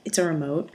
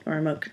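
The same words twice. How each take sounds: First: "remote" said ree-mote, full ee in the first syllable. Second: "remote" said ruh-mote, weak schwa first syllable. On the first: Vlogger listing her own ways to say it, ree-mote. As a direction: open "remote" with a clear long ee. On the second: Vlogger offering her other version, ruh-mote. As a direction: slur the start of "remote" to ruh. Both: Shown as a demonstration.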